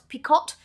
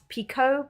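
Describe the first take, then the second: First: The final t sound is pronounced. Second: The final t sound is silent. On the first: "so it's spelt picot" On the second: "it's pronounced picot because it's probably French, and the French like to drop the uh, the, the last consonants"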